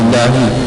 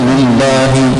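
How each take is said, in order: First: The L sound is short, with no pressing. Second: The L sound is pressed and held doubled. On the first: The speaker calls it wrong. "lillahi tak ada tekan sikit" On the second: The speaker calls it right. "ada syaddah dia tekan lillahi"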